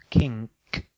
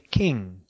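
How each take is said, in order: First: The word ends with an added k sound. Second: The word ends with a plain ng sound. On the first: The speaker calls it wrong. "not kink" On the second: The speaker calls it right. "You say king"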